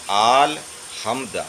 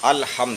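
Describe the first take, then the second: First: The first vowel is long, like 'aal'. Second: The first vowel is short, like 'al'. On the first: The speaker calls it wrong. "आल नहीं है" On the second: The speaker calls it right. "अल होता"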